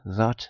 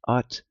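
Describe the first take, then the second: First: The word begins with a th sound. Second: The word begins directly with a vowel. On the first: The speaker is from the south. "If you're for uh, south" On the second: The speaker is from the northeast. "if you're for the northeast"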